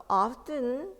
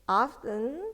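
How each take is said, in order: The two takes are said the same way.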